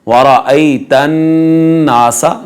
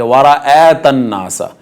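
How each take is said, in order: First: वराअयतन with "ay", long hummed n into नासा; correct glide, ghunnah. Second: वराअतन with "ae" instead of "ay"; wrong flattened vowel. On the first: Teacher modelling the correct reading, correct glide, ghunnah. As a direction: slowly hold the nasal n between वराअयतन and नासा. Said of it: "नून के ऊपर गुन्ना किया जाएगा". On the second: Teacher showing the error, wrong flattened vowel. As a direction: misread वराअतन नासा without the glide. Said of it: "नहीं पढ़ेंगे". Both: Shown as a demonstration.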